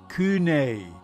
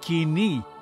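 First: The word is pronounced kune. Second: The word is pronounced kini. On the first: The speaker calls it wrong. "or kune" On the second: The speaker calls it right. "Kini, kini, not koine or kune"

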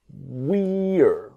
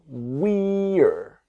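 The two takes are said the same way.

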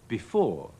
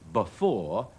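First: The first vowel is a short i sound. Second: The first vowel is a schwa sound. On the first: "頭一個音節個e 都變成個短嘅i 音" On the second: "佢哋用咗個模糊元音"

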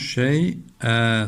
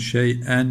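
First: The word ends with a lengthened vowel. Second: The word ends with an n sound. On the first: This is the form used when stopping on the word. "Ama durduğumuz zaman şey'e. ... böyle uzatarak durulur" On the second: This is the form as written, read without stopping. "Bakın şey'en yazıyor. İki üstün var"

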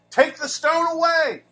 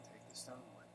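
First: It is said forcefully, as a command. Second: It is said meekly, without force.

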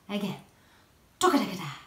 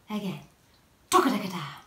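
No difference in how they are said.

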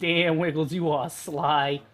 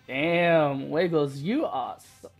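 First: It is said in a Brooklyn accent. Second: It is said in a plain accent.

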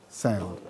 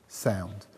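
No difference in how they are said.

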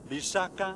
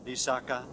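First: One low syllable, then two high syllables. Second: All three syllables are on a low tone. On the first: It means a poison. "if I use a low and two high tones" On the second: It means a marsh or a wet place. "in three low tones"

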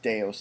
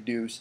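First: It sounds like 'day-us', not 'deuce'. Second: It sounds like the word 'deuce'. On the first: The speaker calls it right. "it's Deus" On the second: The speaker calls it wrong. "Don't say Deuce"

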